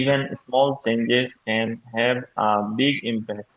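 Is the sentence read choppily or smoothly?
choppily. The words are read separately and unnaturally. The speaker calls it wrong. "এভাবে না পড়ে"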